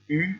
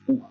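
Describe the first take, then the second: First: The vowel is the French front rounded u. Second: The vowel sounds like oo in food. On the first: "le U" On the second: "se prononce OU"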